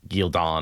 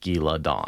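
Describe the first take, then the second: First: The name is said without the extra syllable. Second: The name is said with an extra syllable. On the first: The speaker calls it wrong. "I don't like" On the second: The speaker calls it right. "I'll always add in an extra syllable"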